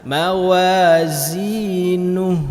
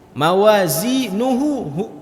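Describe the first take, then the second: First: The word ends on a bare h with no vowel. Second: The word ends with an added u vowel. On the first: The reader stops at the end of the verse. "kalau kita berhenti" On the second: The reader continues into the next verse. "Kalau kita sambung"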